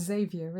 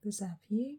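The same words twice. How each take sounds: First: "Xavier" said the English way, ZAY-vee-er; anglicised "Xavier", stressed on an opening "ZAY"; English pronunciation. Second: "Xavier" said the French way, zav-YAY; French-style "Xavier", ending in a stressed "yay"; French pronunciation. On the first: Shown as a demonstration. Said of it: "In English, it's". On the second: Real, not acted. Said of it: "said it with the French pronunciation".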